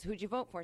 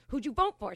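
First: Said in the usual way. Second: Louder, insistent repeat of the question; pressing demand. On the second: Retold or imitated. Friend's husband pushing about the election, insistent. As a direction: press the question harder, imitating an angry man.

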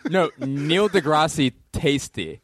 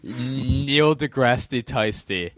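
First: Tyson said as "Tasty", slow and laughing; joke mispronunciation. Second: Laughing. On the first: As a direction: drawl "Neil deGrasse Tasty" through a laugh. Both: Shown as a demonstration.

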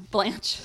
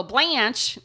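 First: Said in the usual way. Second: BLANCHE with a loud Cleveland "a"; slipped Cleveland accent. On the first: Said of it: "trying to really hard not to say that". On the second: Real, not acted. Host restarting the story, Cleveland accent on Blanche. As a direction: let Blanche slip out high and Cleveland. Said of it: "trying to really hard not to".

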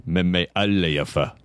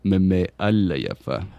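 First: Meme Allayafa repeated slowly and lower. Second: Meme Allayafa said slowly, syllable by syllable; dictionary pronunciation. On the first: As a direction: echo Meme Allayafa deeper and slow. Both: Shown as a demonstration. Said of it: "Syllable by syllable".

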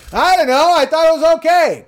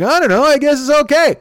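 First: Very high, loud, strained mock scream; screaming Bill impression. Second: High, slightly louder mock Dwyer voice; Dwyer impression. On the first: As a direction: screech it like Bill losing it. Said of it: "'Cause he's fucking screaming". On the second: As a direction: toss it off in a raised, mocking voice. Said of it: "He's like".

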